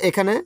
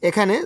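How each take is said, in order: No difference in how they are said.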